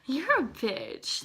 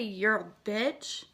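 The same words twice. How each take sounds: First: It is said in a playful, joking tone. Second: It is said in a hostile, aggressive tone.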